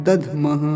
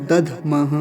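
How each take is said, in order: No difference in how they are said.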